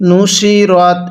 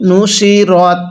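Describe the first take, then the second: No difference in how they are said.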